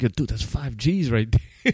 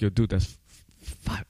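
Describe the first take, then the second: First: Said in the usual way. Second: Tripping over five, cut off mid-word; a stammered f- before five; stuttering. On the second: Retold or imitated. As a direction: stumble on the number in shock. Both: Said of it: "Like, I started stuttering".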